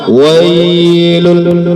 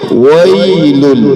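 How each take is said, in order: First: The 'ai' sound is stretched out long. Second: The 'ai' sound is short and soft. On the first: The speaker calls it wrong. "Contoh yang salah" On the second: The speaker calls it right. "Satu kali sentuhan, lunak saja dia"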